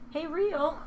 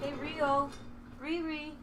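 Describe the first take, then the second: First: High, sing-song call to a pet; calling the cat. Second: High, softer coaxing call; coaxing pet call. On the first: Owner calls her cat to the stream, sing-song. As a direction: coax the cat to come. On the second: Owner softly coaxes her hiding cat, sing-song. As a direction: gently lure the cat over. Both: Real, not acted.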